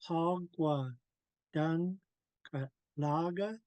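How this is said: The pitch rises at the end of the phrase. The speaker calls it wrong. "my tone's not supposed to go up because it's a question. We only do that in English"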